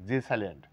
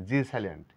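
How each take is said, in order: No difference in how they are said.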